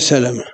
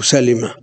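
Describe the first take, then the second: First: The second syllable has the vowel a: Salama. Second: The second syllable has the vowel i: Salima. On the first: "مضبوطة بالفتح" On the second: "والكسر"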